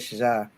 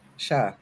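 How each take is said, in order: First: The consonant is a voiced 'zh' sound. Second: The consonant is a voiceless 'sh' sound. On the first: "I say Shaja. It's like a Z" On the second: "I don't say Sha"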